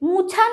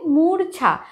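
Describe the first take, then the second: First: No r sound is heard before the ch. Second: An r sound is heard before the ch. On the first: The speaker calls it wrong. "মুছা নয় কিন্তু" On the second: The speaker calls it right. "সেটা হবে মূর্ছা"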